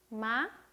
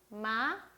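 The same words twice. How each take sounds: No difference in how they are said.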